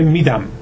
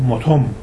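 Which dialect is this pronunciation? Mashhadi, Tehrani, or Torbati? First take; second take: Tehrani; Torbati. First: It is said with a Tehran pronunciation. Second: It is said with a Torbat pronunciation. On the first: "تهرانی میگه" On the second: "تربتی میگه"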